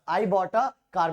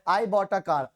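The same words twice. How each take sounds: First: A in I bought a car drawn out and marked, very slowly; slow it down and point at a; deliberate classroom repeat landing on a; stress on a. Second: Said in the usual way. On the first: Shown as a demonstration. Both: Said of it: "तो ए कब आया?".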